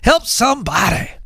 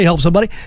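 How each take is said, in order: First: It is said with heavy, drawn-out Southern emphasis. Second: It is said flatly, without extra emphasis. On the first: The speaker calls it right. "we Southerners ... put a little emphasis on it" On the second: The speaker calls it wrong. "You don't say help somebody"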